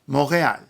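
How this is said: It is pronounced the French way. "or in French"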